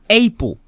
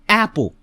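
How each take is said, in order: First: The first vowel is a long A. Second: The first vowel is a short A. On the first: The speaker calls it wrong. "not April" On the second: The speaker calls it right. "A, a, a, apple"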